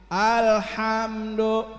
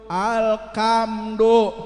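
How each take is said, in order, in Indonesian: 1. Konsonan di tengah itu bunyi h. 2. Konsonan di tengah itu bunyi k.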